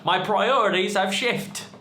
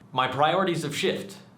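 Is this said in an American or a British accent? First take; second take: British; American. First: It is said in a put-on British accent. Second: It is said in the speaker's usual accent.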